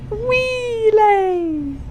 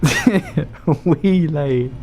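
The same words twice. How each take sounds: First: Extremely high, stretched "Wheelay" squeal; silly squeal. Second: Higher, stretched-out "Wheelay"; silly drawn-out voice. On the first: Streamer tops own joke name, very high silly squeal. Repeats joke word much higher. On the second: Streamer repeats the joke name, silly raised voice. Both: Pretend.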